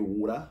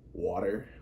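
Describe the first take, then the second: First: It is said in an Australian accent. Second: It is said in a North American accent.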